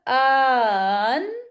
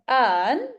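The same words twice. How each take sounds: First: An extra long vowel comes between the hamzas. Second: No extra vowel comes between the hamzas. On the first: "पहले लंबा कर रहे थे ना" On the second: "अब लंबा नहीं होगा, अलिफ मद्दा नहीं लगेगा"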